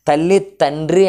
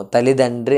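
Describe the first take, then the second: First: "తల్లి తండ్రి" with unvoiced t opening తండ్రి; hard T pronunciation. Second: "తల్లిదండ్రి" joined, with t voiced to d; softened D pronunciation. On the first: Teacher showing what we don't say, "తల్లి తండ్రి" with hard t. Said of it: "అని పలకము". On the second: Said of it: "అంటాం". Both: Shown as a demonstration.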